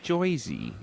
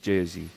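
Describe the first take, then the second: First: It is said with an exaggerated New Jersey accent. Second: It is said with a New York accent.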